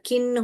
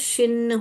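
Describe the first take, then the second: First: The word begins with a k sound. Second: The word begins with an sh sound. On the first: "अगर हम इसको क करके पढ़ेंगे" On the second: "अगर हम इसको श पढ़ेंगे"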